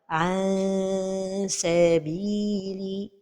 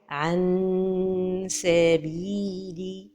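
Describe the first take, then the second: First: The tongue pulls away, sounding like a long vowel. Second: The tongue closes fully, giving a clear nasal n. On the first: "trop éloigner la langue du palais supérieur" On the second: "toucher le palais supérieur avec le bout de la langue"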